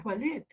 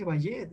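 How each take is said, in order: First: "ballet" said "ba-let", with an l sound; correct ballet. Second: "ballet" wrongly said "ba-yet", ll as y; mispronounced ballet. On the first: Teacher correcting how students read ballet, with an l. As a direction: say "ballet" with a plain l, not y. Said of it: "es, es ballet". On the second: Teacher showing students how not to say ballet, mispronounced. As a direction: say "ballet" with a Spanish y sound for ll. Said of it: "no se dice ballet". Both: Shown as a demonstration.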